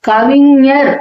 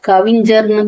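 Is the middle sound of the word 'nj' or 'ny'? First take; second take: ny; nj. First: The middle consonant is a pure 'ny' nasal. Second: The middle consonant is an 'nj' cluster. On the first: "இந்த ஞ வந்து நிறைய பேருக்கு வராது. கவிஞர் அப்படின்னு சொல்றதுக்கு பதிலா" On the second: "கவிஞர்னு தான் சொல்லுவாங்க"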